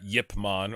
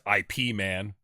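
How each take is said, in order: First: The name begins with a 'y' sound. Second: The name begins with an 'eye' sound. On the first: This is the original pronunciation of the name. "it's actually pronounced Yip Man" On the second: This is how English speakers in America say it. "for our English speaking audience"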